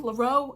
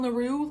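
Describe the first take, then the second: First: "Leroux" ending in an oh sound; alternative pronunciation. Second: "Leroux" ending in an oo sound; unsure pronunciation. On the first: Reader second-guessing the author's French name, alternative pronunciation. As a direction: say "Leroux" as luh-ROH. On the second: Reader guessing at the author's French name, unsure pronunciation. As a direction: say "Leroux" as luh-ROO. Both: Shown as a demonstration. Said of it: "I don't know".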